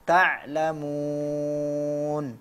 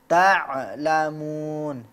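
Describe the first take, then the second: First: The ain is said lightly without an echoing bounce. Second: The ain is stopped hard with an echoing bounce. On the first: The speaker calls it right. "cukup begitu saja" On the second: The speaker calls it wrong. "jangan berlebihan saat berhenti pada huruf ain sehingga seolah-olah mau memberikan qalqalah"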